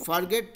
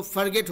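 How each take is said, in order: First: फॉरगेट with a long open first vowel; फॉरगेट with full 'for'. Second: फॉरगेट said 'fur-GET'; quick short 'fur' opening on फॉरगेट; फॉरगेट with reduced 'fur'. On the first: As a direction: say फॉरगेट as spelled. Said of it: "फॉरगेट था". (फॉरगेट, पूरे 'फॉर' के साथ) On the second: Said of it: "तो फॉरगेट हो गया". (फॉरगेट को 'फर-गेट' जैसे बोलें) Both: Shown as a demonstration.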